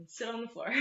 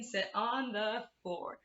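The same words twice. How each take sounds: First: Said in the usual way. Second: Chanted rhyme line. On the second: Shown as a demonstration. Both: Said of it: "It goes".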